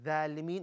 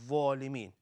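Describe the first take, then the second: First: The first consonant is light and thin. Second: The first consonant is heavy, with a full mouth. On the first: The speaker calls it wrong. "we don't say" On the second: The speaker calls it right. "one full mouth letter"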